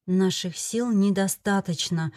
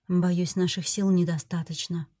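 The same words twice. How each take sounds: First: Slow, heavy echo of the grim words; echoed like a verdict. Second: Said in the usual way. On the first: A narrator's reading. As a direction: let each word fall slowly like a sentence. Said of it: "словно приговор повторялось".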